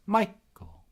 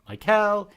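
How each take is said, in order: First: Michael as MY-kul, first syllable high; Michael with stressed MY and weak ending. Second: Michael as my-KELL, loud, high ending; Michael wrongly stressed on its last syllable; stress on second syllable. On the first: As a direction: hit the MY of Michael and let the rest drop. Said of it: "my first name is a trochee". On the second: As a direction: punch the end of Michael, my-KELL. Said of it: "It's not Michael". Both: Shown as a demonstration.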